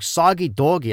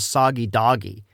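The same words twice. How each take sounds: First: It uses the speaker's local regional vowels. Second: It uses vowels common elsewhere in the US. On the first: Heard this way, the name made no sense. "the way we pronounce things here is extremely different" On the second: This is how the toy name was meant. "most people would pronounce it as Soggy Doggy in other parts of the United States"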